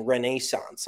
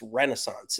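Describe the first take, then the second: First: Renaissance with NAY in the middle; British pronunciation. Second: Renaissance as REN-uh-sonce; American pronunciation. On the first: Retold or imitated. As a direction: quote Renaissance as ruh-NAY-sonce. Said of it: "even Jim Nantz was saying". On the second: Shown as a demonstration. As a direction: stress the first syllable of Renaissance. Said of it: "say it differently".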